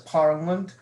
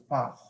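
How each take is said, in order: First: The ending is sounded out after par. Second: The ending is silent, soft and short. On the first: The speaker calls it wrong. "People pronounce it as parlant sometimes" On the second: The speaker calls it right. "it's actually par, par. Very soft"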